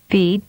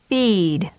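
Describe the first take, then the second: First: The vowel is held briefly. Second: The vowel is prolonged. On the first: "with a short vowel duration first" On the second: "and then with a longer duration"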